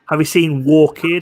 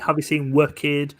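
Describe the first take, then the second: First: Our is said like war, Geordie style. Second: Our is said like were, South Shields style.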